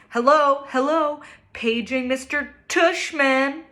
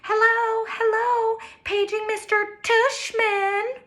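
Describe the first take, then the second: First: It is said in a normal voice. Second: It is said in a high, old-lady voice.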